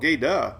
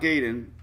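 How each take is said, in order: First: The name ends with a vowel sound. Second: The name ends with an N sound. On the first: The speaker calls it right. "No N at the end?" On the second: The speaker calls it wrong. "If it's not Gaydon"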